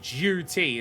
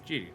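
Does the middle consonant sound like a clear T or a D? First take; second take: clear T; D. First: The middle consonant is a crisp T sound. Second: The middle consonant is a soft D sound. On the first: This is not the Australian way of saying it. "duty isn't duty" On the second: This is the Australian way of saying it. "We turn the T sound into a D sound"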